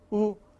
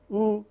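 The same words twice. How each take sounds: Both takes have the same delivery.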